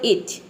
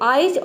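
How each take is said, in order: First: The vowel is a short 'i' sound. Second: The vowel sounds like the word 'eye'. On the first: The speaker calls it right. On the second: The speaker calls it wrong.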